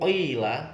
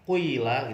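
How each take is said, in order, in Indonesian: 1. Vokal pertama berada di antara u dan i. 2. Vokal pertama berada di antara u dan i.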